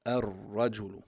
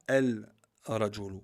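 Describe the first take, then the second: First: "ar-rajulu" with no L, straight into a held rolled R; silent lam. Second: "el-rajulu" with a separate L before the R; lam wrongly sounded. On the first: Teacher giving the correct form, "ar-rajulu" with doubled R. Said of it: "On dit". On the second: Teacher showing what one must not say, the L sounded in "el-rajulu". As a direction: say "el-rajulu" slowly, L audible and detached. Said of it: "On dit pas el-rajulu". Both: Shown as a demonstration.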